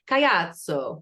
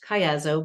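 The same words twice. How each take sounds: First: It is said with an Italian accent. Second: It is said with a plain American accent.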